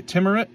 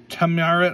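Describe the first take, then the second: First: Timurit retried as "TIM-ur-it", rising at the end; corrected name. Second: Timurit stumbled as "tuh-MAR-it"; first try at the name. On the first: Reading card names, correcting his own slip. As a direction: Timurit said carefully, questioning rise. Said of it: "words are hard". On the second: Opening card packs, botching a card name first. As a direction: Timurit read hesitantly, wrong vowels. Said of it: "I can't, T". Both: Real, not acted.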